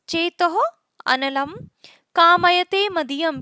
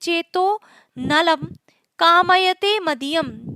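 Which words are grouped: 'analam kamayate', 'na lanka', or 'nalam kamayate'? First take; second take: analam kamayate; nalam kamayate. First: It is split as 'analam kamayate'. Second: It is split as 'nalam kamayate'. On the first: My mind desires fire. "तीसरे प्रकार का है चेतो अनलम" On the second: My mind desires Nala. "अगर इस तरह से इसको बोले"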